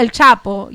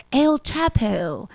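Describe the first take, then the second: First: El Chapo with a Spanish ch and short vowels; Dominican accent. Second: El Chapo said slowly in a flat American English way; anglicized pronunciation. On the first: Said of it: "if I say El Chapo". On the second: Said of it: "But El Chapo". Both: Shown as a demonstration.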